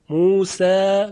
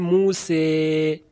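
First: The final vowel is a plain open 'a'. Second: The final vowel leans toward an 'e' sound.

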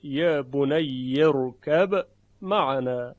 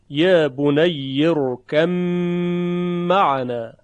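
First: The b is clearly pronounced before the m. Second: The b merges into a doubled m sound. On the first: "اما وجه اظهار اون به این نحوه" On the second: "بحث ادغامش به این صورته"

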